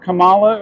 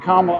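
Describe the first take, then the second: First: Kamala stressed on the middle syllable, ka-MAH-la; name pronunciation. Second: Kamala stressed on the first syllable, KAH-muh-luh; name pronunciation. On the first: Streamer checking a viewer's correction, Kamala with stressed middle syllable. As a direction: say Kamala as kuh-MAH-luh, rising at the end. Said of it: "or is it Kamala?". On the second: Streamer checking a viewer's correction, Kamala with stressed first syllable. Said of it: "It's not Kamala, or is it". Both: Shown as a demonstration.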